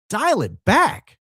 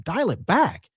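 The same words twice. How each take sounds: First: "Dial it back" drawn out at half speed, higher; emphatic repeat. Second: Said in the usual way. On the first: Acted. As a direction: stretch each word of "Dial it back" firmly.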